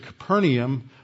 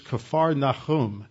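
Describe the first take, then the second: First: The name is said with English pronunciation. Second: The name is said with Hebrew pronunciation. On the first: "we pronounce it Capernaum" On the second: "in the Hebrew it's Capernaum"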